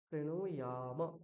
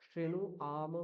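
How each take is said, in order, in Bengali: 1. শেষ অংশটি 'y' সহ 'yam' হিসেবে উচ্চারিত হয়। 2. শেষ অংশটি 'y' ছাড়া 'am' হিসেবে উচ্চারিত হয়। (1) "কি বলতে হবে? শ্রেণু ইয়াম।" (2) "শ্রেণু আম বলা যাবে না"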